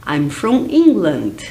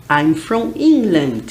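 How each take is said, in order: Both takes have the same delivery.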